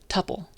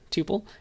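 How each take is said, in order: First: The first vowel is a short 'uh' sound. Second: The first vowel is a long 'oo' sound. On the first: "another with supple" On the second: "one to rhyme with tuple"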